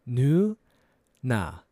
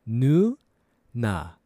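Both takes have the same delivery.

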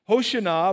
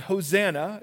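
First: It is said the original, authentic way. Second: It is said the common American way. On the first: "Hoshana is how you would really say it" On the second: "is how we say it in American"

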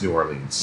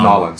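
First: The city name is said in standard form. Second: The city name is squeezed into Cajun 'Nolans'.

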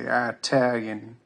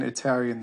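First: The first vowel is an 'eye' sound. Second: The first vowel is a short 'ih' sound. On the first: "that is a Texan thing. Like they say, ... they'll say Italian" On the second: "instead of saying Italian"

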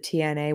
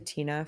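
First: The name is said letter by letter. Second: The name is said as one word. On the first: The speaker calls it right. "but it's the TNA" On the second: The speaker calls it wrong. "I always say Tina"

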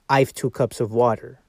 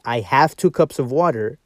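First: The word have is contracted to I've. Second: The word have is said in full. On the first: The speaker calls it wrong. "you can't say" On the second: The speaker calls it right. "you can say"

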